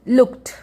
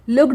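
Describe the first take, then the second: First: The ending is pronounced as a t sound. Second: The ending is pronounced as a d sound. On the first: The speaker calls it right. "ट होगा" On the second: The speaker calls it wrong. "लुक्ड नहीं पढ़ेंगे, ड sound नहीं आएगा"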